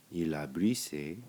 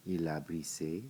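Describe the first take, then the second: No difference in how they are said.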